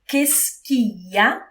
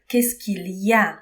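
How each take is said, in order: First: The phrase is squeezed into fewer, shorter syllables. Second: Every syllable of the phrase is pronounced fully. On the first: It is the casual way people really say it. "C'est une version plus courte, euh, plus familière" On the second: It is the standard, formal way to say it. "C'est une version officielle"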